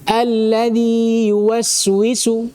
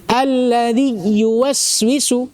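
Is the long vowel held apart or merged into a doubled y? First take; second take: held apart; merged. First: The long vowel is held fully before the next y. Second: The long vowel merges into a doubled y sound. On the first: The speaker calls it right. "sempurnakan matnya. Baru baca huruf setelahnya" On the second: The speaker calls it wrong. "kalau antum baca langsung pasti antum tasydid ... ini khata"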